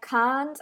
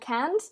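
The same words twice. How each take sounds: First: It is said with a British accent. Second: It is said with an American accent. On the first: "they would say like can't" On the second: "I say cannot and can't, and that's like more American"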